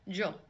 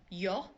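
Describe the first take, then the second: First: The word begins with a J sound. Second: The word begins with a Y sound. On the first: "you might hear jo" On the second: "Instead of yo"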